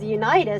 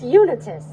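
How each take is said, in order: First: The start sounds like the word 'unite'. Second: The start does not sound like 'unite'. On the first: The speaker calls it wrong. "I thought it was Unitas because it looks like Unite" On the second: The speaker calls it right. "It's Unitas"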